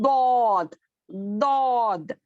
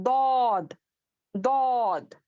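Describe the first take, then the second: No difference in how they are said.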